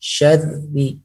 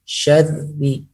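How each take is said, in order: First: The r is a single quick tongue tap. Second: The same.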